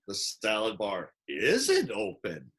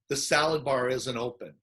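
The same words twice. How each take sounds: First: It is said with a funny, playful inflection. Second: It is said in a plain, matter-of-fact way. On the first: It teases affectionately and shows connection. "I put this funny inflection in" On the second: It simply points out a fact. "she she might say"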